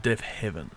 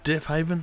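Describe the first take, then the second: First: "Deaf Heaven" with a short E, as in heaven; pronounced as Heaven. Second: "Deaf Haven" with a long A, as in haven; pronounced as Haven. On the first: Reviewer offering the other band pronunciation, "Deaf Heaven" with a short E. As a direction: say "Deaf Heaven" with HEV in the second word. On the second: Reviewer asking how the band is pronounced, "Deaf Haven" with a long A. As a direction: say "Deaf Haven" with HAY in the second word. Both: Shown as a demonstration. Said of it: "Is it pronounced Deaf Haven".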